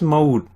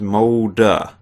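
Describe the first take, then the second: First: The name ends on the consonant d. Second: The name ends with an extra vowel sound. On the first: The speaker calls it wrong. "as I was pronouncing it" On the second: The speaker calls it right. "pronounced Molda, so A H at the end or E H"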